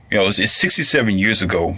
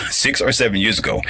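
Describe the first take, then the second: First: Said in the usual way. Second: "or" pulled apart and stressed in "Six or seven". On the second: Shown as a demonstration. Correcting his slip for listeners, stressing "or". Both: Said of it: "I didn't say sixty".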